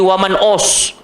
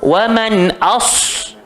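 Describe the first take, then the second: First: The vowel after man sounds like o. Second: The vowel after man sounds like a. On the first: The speaker calls it wrong. "Jangan awal-awal lagi wa man os" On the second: The speaker calls it right. "itu je bunyi dia A, jangan os"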